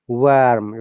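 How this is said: American accent, with the R sounded. "if you pronounce it American"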